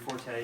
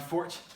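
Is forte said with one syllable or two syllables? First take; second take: two syllables; one syllable. First: It is said as two syllables, like for-tay. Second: It is said as one syllable, like fort. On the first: The speaker calls it wrong. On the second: The speaker calls it right.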